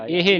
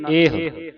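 First: ਇਹ said as two syllables, "ehe"; wrong final vowel. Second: ਇਹ ending in a rounded "eh-u"; corrected ending. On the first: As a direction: demonstrate mistaken ਇਹ as "ehe". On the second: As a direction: round off the end of ਇਹ. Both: Shown as a demonstration. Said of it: "ਇਹ ਨਹੀਂ ਪੜ੍ਹਨਾ".

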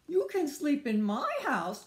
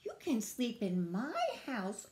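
First: High, loud hail; calling out. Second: Mildly raised, easy invitation; friendly offer. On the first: Beaver invites the homeless friends over, calling out. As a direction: project it brightly to the group. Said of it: "called Beaver". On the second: Squirrel offers the friends a bed, mild friendly invitation. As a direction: offer it without calling out. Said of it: "offered Squirrel". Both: Acted.

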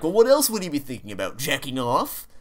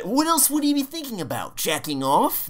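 First: Raised mocking impression. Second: High mocking impression of friend; exaggerated high squeaky imitation; imitating friend. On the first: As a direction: poke fun with a higher voice. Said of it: "even the voice you're making right now". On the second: Retelling a quote from stream.

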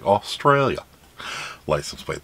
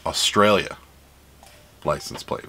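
First: A weak attempt at an Australian accent; bad Australian accent. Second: Said in the usual way. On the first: Shown as a demonstration. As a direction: try an Australian accent, badly. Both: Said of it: "That's not a good Australian accent".

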